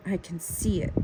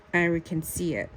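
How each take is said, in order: Both takes have the same delivery.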